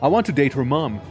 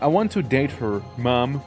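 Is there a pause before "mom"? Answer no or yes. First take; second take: no; yes. First: There is no pause before "mom." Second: There is a pause before "mom."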